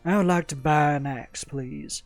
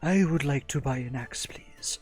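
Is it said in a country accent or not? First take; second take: country accent; not country. First: It is said in a country accent. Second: It is said without a country accent.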